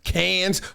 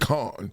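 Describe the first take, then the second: First: The name ends in an 's' sound, like 'cans'. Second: The name is said short, like 'con', without 's'. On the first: This is the older, ordinary way to say it. "It used to be cans" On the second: This is the fancier, more refined way to say it. "you ain't Grey Poupon enough if you don't say con"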